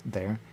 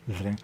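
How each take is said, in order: Both takes have the same delivery.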